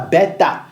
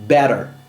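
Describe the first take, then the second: First: The middle consonant is a crisp T sound. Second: The middle consonant is a quick D-like flap. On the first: The speaker calls it wrong. "ne se dit pas beta" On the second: The speaker calls it right. "ça sonne better"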